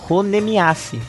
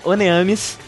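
First: The name ends with an extra 'miase' sound. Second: The name ends in a short 'amis' sound. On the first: The speaker calls it wrong. "Eu sempre falava Honemiase" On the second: The speaker calls it right. "Mas a pronúncia correta é Oneamis"

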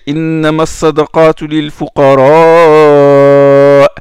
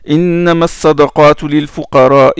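First: The long vowel before the glottal stop is prolonged. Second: The long vowel before the glottal stop is short. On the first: The speaker calls it right. "il faut prolonger. 4 harakat ou même plus" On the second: The speaker calls it wrong. "Il n'a pas prolongé le med du hams"

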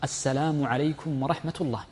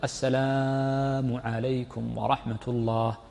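First: The words are clipped short without stretching. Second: The vowels are stretched and drawn out. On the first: The speaker calls it right. "اجعله حذفا" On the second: The speaker calls it wrong. "ما تمد، ما تقول"

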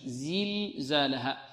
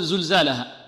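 First: The first vowel is a front i sound. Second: The first vowel is a rounded u sound. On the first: The speaker calls it right. "يركز معه على كسرة الزاي" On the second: The speaker calls it wrong. "يضم الزاي"

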